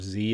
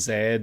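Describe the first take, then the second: First: The letter is said as 'zee', American style. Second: The letter is said as 'zed', non-American style.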